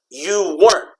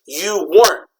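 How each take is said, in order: The two takes are said the same way.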